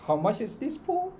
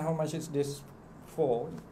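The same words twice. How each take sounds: First: It is said with a clear question tune. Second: It is said flat, with no question tune. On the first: The listener hears that it is a question. The speaker calls it right. "Kita dah ada intonasi kan" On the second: The listener cannot tell it is a question. The speaker calls it wrong. "dalam nada yang tak ada intonasi"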